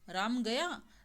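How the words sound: It is said with an exclaiming, surprised tune. Shows surprise that Ram has left. "आश्चर्य"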